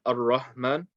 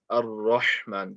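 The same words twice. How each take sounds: First: "Ar-Rahman" with a weak, unclear h; mispronounced ha. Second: Slow "Ar-Rahman" with a clear throaty Arabic ha; correct ha. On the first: Teacher showing the mistake to avoid, mispronounced ha. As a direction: soften the ha in "Ar-Rahman" to a plain weak h. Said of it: "make sure that it's not Ar-Rahman". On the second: Teacher correcting the ha, correct pronunciation. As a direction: sound the ha in "Ar-Rahman" fully from the throat. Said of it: "The ha needs to be pronounced correctly". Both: Shown as a demonstration.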